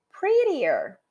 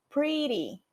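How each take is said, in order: First: Prettier higher and stronger; comparative prettier. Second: Pretty said softly, falling; pretty set up softly before the comparative; base form pretty. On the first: Teacher contrasts base and comparative: prettier said higher. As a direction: punch prettier up high. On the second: Teacher contrasts base and comparative: pretty said softly. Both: Shown as a demonstration. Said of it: "Se eu quiser mais bonita".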